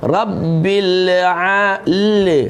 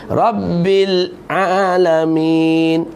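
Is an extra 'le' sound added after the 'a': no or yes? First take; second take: yes; no. First: The tongue stays stuck, adding a 'le' sound. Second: The tongue releases cleanly with no added sound. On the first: The speaker calls it wrong. "Kalau lidah tu masih melekat di langit, dia akan jadi le" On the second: The speaker calls it right. "bila nak sebut a tu lepas lidah tu dulu, rabbil alamin, baru tepat"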